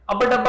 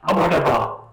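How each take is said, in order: First: It is said flatly, without emotion. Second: It is said with a strong emotional reaction.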